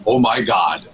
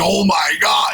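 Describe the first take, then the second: First: Said in the usual way. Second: Imitating an excited exclamation, drawn out; big, enthusiastic mock shout. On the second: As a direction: quote it with hammed-up amazement. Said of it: "with a lot of enthusiasm".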